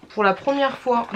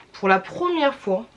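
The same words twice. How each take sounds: The two takes are said the same way.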